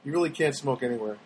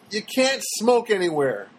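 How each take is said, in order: First: "really" stressed, lower and softer; quieter aside. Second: "can't" leaned on, slow and pointed; stress on can't. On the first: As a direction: mutter it as a wry afterthought. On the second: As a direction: slip it in with weight on "can't". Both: Acted. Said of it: "See how I worked that in?".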